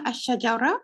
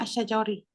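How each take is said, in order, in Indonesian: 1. Kata ini diakhiri dengan vokal a. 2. Kata ini diakhiri dengan vokal i. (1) "dia bukan asyajara" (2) "dia bukan asyajari"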